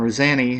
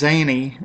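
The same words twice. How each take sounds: First: "Zanny" with a short A; alternative pronunciation guess. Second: "Zanny" with a long A; first pronunciation guess. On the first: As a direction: say "Zanny" to rhyme with granny. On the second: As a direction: say "Zanny" as ZAY-nee. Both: Shown as a demonstration. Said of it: "how you pronounce that".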